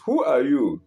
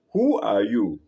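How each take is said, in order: First: Mildly raised calling voice; curious yell. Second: Mild echo of a call, pitch let down; echoed answer. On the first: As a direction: call out the question, a touch louder. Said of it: "Curious, he yells". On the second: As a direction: answer like a mountain echo, lightly voiced. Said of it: "He receives the answer". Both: A narrator's reading.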